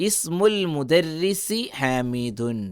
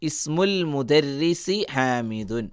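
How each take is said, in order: No difference in how they are said.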